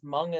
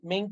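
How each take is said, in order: First: The name is said with an 'uh' vowel. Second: The name is said with an 'ay' vowel. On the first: The speaker calls it right. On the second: The speaker calls it wrong.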